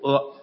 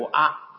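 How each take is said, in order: First: The vowel is read as the short a. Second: The vowel is read as the long a. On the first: It carries a negative meaning. "短阿就应该读阿" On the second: It carries an affirmative meaning. "长阿就应该读阿"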